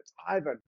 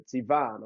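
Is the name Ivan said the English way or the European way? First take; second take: English; European. First: The name is said the English way. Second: The name is said the European way. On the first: The speaker calls it wrong. "we're like, it's Ivan, it's Ivan" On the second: The speaker calls it right. "this guy's European. It's Ivan"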